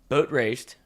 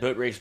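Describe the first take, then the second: First: The phrase is said slowly and carefully. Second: The phrase is said quickly, run together.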